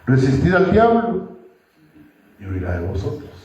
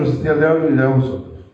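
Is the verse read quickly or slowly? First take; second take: slowly; quickly. First: It is read slowly with pauses. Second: It is read quickly without pausing. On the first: The meaning of the verse is understood. The speaker calls it right. "Hay que leerla pausado" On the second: The meaning of the verse is not taken in. The speaker calls it wrong. "Nada hacemos tirando una ametralladora si no entendemos lo que estamos leyendo"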